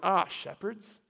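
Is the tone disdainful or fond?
disdainful. It is said with disdainful, questioning surprise.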